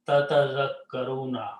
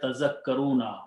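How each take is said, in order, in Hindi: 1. यह शब्द दो 'ta' अक्षरों से शुरू होता है। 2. यह शब्द एक 'ta' अक्षर से शुरू होता है। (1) "this word has two ta's in the beginning" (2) "one ta is not spoken"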